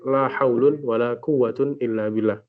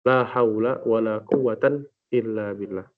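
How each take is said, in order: First: Both nouns end in un. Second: First noun ends in a, second in an. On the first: "kalimat setelah la itu dirafa'kan" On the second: "fathul awal wa nasbus tsani"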